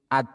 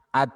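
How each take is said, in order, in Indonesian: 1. Bunyi t diakhiri dengan hembusan udara yang ringan. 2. Bunyi t diakhiri dengan hembusan udara yang ringan.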